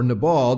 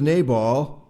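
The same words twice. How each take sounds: First: Nabal with an unstressed "nuh" first syllable; alternate pronunciation. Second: Nabal with a long "nay" first syllable; alternate pronunciation. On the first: Pastor offering another pronunciation of Nabal, as nuh-BALL. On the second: Reader giving the name Nabal one way, as NAY-bal. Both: Shown as a demonstration. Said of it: "depending on how you want to pronounce it".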